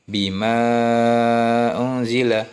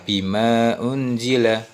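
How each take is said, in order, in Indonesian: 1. Vokal panjang dibaca selama lima harakat. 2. Vokal panjang dibaca selama dua harakat.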